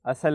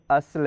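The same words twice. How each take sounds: First: اصل said as asal, with an a after the sad; اصل stretched to two syllables, a-sal; wrong pronunciation. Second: اصل said as asl, silent sad with no vowel; اصل clipped to one syllable, asl, slowly; correct pronunciation. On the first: Teacher shows children the wrong way: اصل as asal. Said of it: "سواد کے اوپر زبر نہیں ہے". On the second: Teacher shows children the right way: اصل as asl. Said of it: "سواد کے اوپر زبر نہیں ہے بلکہ جزم ہے". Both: Shown as a demonstration.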